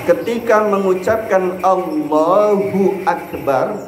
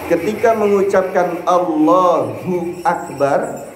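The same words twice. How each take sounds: The two takes are said the same way.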